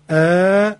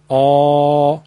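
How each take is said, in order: First: The vowel is light and thin. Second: The vowel is heavy and full from the throat.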